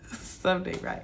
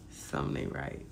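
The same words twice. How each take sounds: First: Laughing whisper. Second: Hushed whisper, almost no voice. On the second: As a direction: breathe it out like a secret aside. Whispered aside. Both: Real, not acted.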